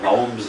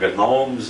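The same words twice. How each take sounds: First: The G at the start is silent. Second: The G at the start is sounded. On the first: This is how people usually say it. "We call them the gnomes of Zurich" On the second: This is how one particular politician said it. "he was the only one that ever pronounced the G in gnomes"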